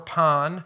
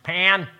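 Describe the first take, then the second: First: The name is said without an American accent. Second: The name is said with an American accent. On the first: This is the proper pronunciation of the name. The speaker calls it right. "Pan is the pronunciation" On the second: This is how Americans usually say the name. The speaker calls it wrong. "we good Americans, we just Pan"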